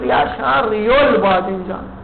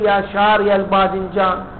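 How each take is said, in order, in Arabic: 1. ينتهي شاري بـ -ya، مع الفتحة المنصوبة. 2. ينتهي شاري بياء طويلة، من دون -ya. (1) "ليش ما تقول يا شاري البادنجان" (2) "ليش تقول يا شاري البادنجان"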